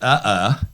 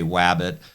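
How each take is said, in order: First: The word is garbled beyond recognition. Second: The first sound is distorted but still understandable. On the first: The speaker has a severe speech impairment. "because my speech is so impaired, then you can't understand what I say" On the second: The speaker has a mild pronunciation problem. "you can understand when I say wabbit"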